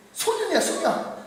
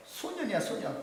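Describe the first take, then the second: First: Raised pitch. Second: Hushed. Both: Shown as a demonstration.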